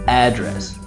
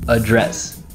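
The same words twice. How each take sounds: First: The stress falls on the first syllable. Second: The stress falls on the second syllable. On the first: It is a noun: where someone lives. "As a noun, first syllable stress" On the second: It is a verb: to speak to someone. "As a verb"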